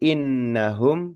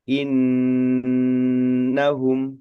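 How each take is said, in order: First: The nasal n sound is short. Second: The nasal n sound is held long. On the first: The speaker calls it wrong. "bacaan innahum itu kurang tepat" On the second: The speaker calls it right. "Yang lebih tepatnya adalah innahum seperti itu. Ditahan lebih lama"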